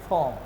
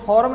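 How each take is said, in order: First: The R sound is silent. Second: The R sound is pronounced. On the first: The speaker calls it right. "आर का उच्चारण नहीं करेंगे" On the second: The speaker calls it wrong. "इसको फॉर्म नहीं बोलते हैं"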